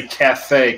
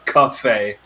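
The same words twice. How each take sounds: First: "cafe" as "ka-FAY", with a short A; "cafe" with a plain "ka" first syllable; standard cafe. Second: "cafe" as "kuh-FAY", in Boston style; Boston-accented "cafe", nearer "cuff" than "caff". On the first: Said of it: "you better not say cafe". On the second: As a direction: give "cafe" a Boston first vowel, "cuff-ay". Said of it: "it's a cafe in Boston". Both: Shown as a demonstration.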